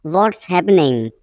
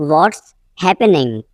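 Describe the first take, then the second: First: Said in the usual way. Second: Teacher separating "What's" from "happening"; broken-up repeat. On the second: Shown as a demonstration. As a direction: pause after "What's".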